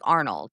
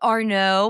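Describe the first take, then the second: First: The surname has a plain English pronunciation. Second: The surname has a French pronunciation. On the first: "mine is more just like Arnold. It's like more boring" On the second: "When I was in France, they were like"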